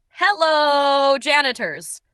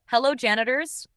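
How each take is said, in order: First: High, loud, drawn-out greeting that sags at the end; dramatic shout. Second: Said in the usual way. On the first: Acted. The janitor shouts his greeting again with extra drama. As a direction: belt it down the hall like a sitcom entrance. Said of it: "shouting again with even more drama".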